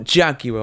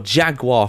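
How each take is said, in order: First: It is said with a British pronunciation. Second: It is said with an American pronunciation.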